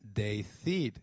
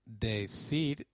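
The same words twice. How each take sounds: First: The c is said like a th sound. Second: The c is said like an s sound. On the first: This is the pronunciation used in Spain. "decir in Spain" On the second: This is the South American pronunciation. "decir in South America"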